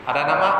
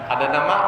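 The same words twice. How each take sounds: The two takes are said the same way.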